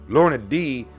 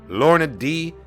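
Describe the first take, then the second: Both takes have the same delivery.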